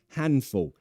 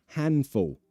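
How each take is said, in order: Both takes have the same delivery.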